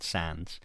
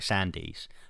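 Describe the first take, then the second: First: The name is said with one syllable. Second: The name is said with two syllables. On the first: "apparently it's pronounced Sands" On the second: "so Sandies"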